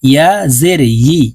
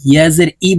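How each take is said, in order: First: Final ই with a clear y glide, "yi"; careful right take of ই as yi; correct ya-zer. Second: Final ই as a bare hamza vowel, no y; quick ই with the y glide dropped; ya-zer mispronounced. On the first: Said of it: "বলতে হবে". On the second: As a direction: common mistake, plain i for yi in ই. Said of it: "বলে থাকি আমরা অনেকে". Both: Shown as a demonstration.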